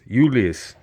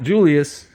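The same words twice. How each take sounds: First: The word begins with a Y sound. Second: The word begins with a J sound. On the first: The speaker calls it right. "they pronounce it kind of like a Y" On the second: The speaker calls it wrong.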